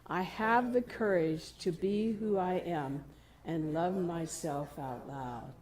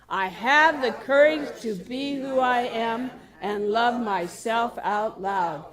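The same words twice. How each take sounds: First: It is spoken in a normal voice. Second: It is said loudly, projected outward.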